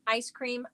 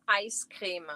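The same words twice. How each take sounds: First: Said in the usual way. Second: Ice creme with a long ee vowel, creem; regional pronunciation. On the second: Shown as a demonstration. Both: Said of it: "We pronounce it ice creme".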